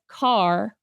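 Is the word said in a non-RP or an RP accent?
non-RP. It is said in a non-RP accent. The speaker calls it wrong. "a student says car"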